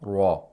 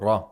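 First: The r is made overly heavy and throaty. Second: The r is made only moderately heavy. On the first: The speaker calls it wrong. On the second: The speaker calls it right.

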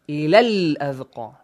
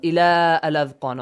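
First: The vowel of ila is short, joined quickly. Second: The vowel of ila is stretched out long. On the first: The speaker calls it right. "We quickly join them" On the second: The speaker calls it wrong. "Do not stretch the sound of ila"

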